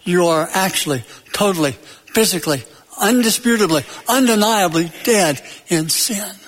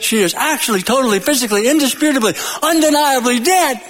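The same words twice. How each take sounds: First: Word by word, with pauses between; grave pronouncement. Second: Building, higher-pitched mock proclamation; Munchkins' pronouncement. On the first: Retold or imitated. Preacher applies the Munchkins' words to sinners, deliberate pronouncement. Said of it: "Paul is saying". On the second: Munchkins tell Dorothy the witch is dead, rising proclamation. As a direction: run the adverbs together, climbing to a high finish. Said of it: "The Munchkins. They said".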